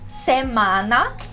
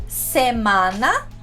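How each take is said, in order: No difference in how they are said.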